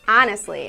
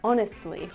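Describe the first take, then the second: First: It is said with a Midwestern pronunciation. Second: It is said with a standard pronunciation. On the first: "I say things like honestly" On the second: "instead of honestly"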